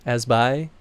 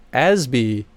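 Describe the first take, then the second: First: "Asby" ending in a "bye" sound; second-guessed pronunciation. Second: "Asby" ending in a "bee" sound; trying a pronunciation. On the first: Streamer doubts the credited name, "Asby" rhymed with bye, questioningly. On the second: Streamer tries a name from the credits, "Asby" rhymed with bee. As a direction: say "Asby" as AZ-bee, falling at the end. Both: Real, not acted. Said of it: "really bad at pronouncing names".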